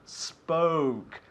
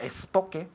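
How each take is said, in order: First: The word starts directly with the s sound. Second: An extra vowel sound comes before the s. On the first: The speaker calls it right. "but spoke" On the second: The speaker calls it wrong. "not espoke"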